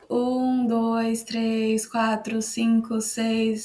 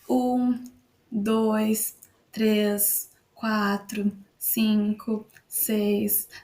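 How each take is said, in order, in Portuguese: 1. Os números são contados muito rapidamente. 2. Os números são contados em velocidade normal. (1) "começar a falar mais rápido na velocidade dois x" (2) "isso foi na minha velocidade normal"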